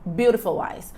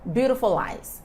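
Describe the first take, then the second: First: The words are said fast and joined together. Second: The same.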